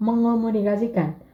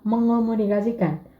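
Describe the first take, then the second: First: The ng runs straight into the o. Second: The same.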